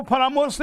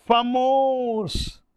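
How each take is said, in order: First: Said in the usual way. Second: फमोस said very slowly and drawn out, with no रा syllable; clipped mnemonic word. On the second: Shown as a demonstration. Teacher showing the mnemonic word's sound, slow stretched फमोस. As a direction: drag out फमोस, not फरामोश. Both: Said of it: "फरामोश नहीं बोल रहा हूँ".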